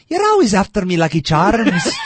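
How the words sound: It is an Irish accent in a high voice. The speaker calls it wrong. "at least I naturally want to go high like a leprechaun"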